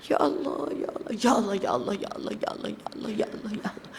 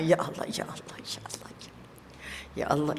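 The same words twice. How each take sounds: First: Fast ya Allah sinking to a whisper; rushed zikir fading to whisper. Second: Soft, low ya Allah on each breath; zikir with the breath. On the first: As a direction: rattle off the zikir and let it die away. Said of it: "tak boleh laju-laju". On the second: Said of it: "ikut nafas kita". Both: Shown as a demonstration.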